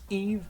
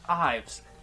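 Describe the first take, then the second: First: It has an 'ee' vowel and no final s. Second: It has an 'eye' vowel and a final s. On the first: The speaker calls it right. "It's pronounced Eve" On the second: The speaker calls it wrong. "not Ives"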